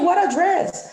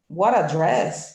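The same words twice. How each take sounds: First: It is said in an admiring, enthusiastic tone. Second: It is said in a disapproving, unimpressed tone. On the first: The speaker liked the dress. "It's not like, hey" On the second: The speaker did not like the dress. "you can deduce, I didn't like the dress"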